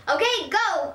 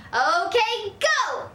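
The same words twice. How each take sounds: First: Said in the usual way. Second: Higher, more insistent urging; louder. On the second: Acted. Girl prodding grandma to act, louder and higher. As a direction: push her harder. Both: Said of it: "I said louder".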